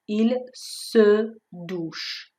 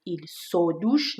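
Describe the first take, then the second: First: "Il se douche" with French schwa in se; correct schwa. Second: "il se douche" with o instead of schwa; wrong vowel. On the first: Teacher giving the correct form after the warning: clear schwa. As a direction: say it the right way. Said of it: "نیست". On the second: Teacher warning students about the error: wrong vowel. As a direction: say the wrong version on purpose. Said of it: "دقت کنید il se douche نیست". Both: Shown as a demonstration.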